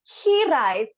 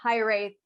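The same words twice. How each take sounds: First: The word is pronounced the Welsh way. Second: The word is pronounced an English way. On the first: "Welsh pronunciation would be hiraeth" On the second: "make it a bit more English. So hiraeth was the best option"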